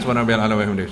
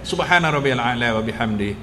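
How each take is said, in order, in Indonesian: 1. Frasa ini diucapkan dengan cepat dan tergesa-gesa. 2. Frasa ini diucapkan dengan lambat dan tenang. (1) "Kalau ikut syaitan" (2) "kalau kita tak nak cepat"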